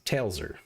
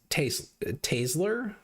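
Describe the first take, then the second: First: The L sound comes before the S sound. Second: The S sound comes before the L sound. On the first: The speaker calls it right. "the proper pronunciation is Tailser" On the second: The speaker calls it wrong. "they flip them, and it's Tasler"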